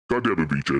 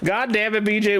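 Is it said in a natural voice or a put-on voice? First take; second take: put-on voice; natural voice. First: It is said in a put-on character voice. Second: It is said in his natural voice.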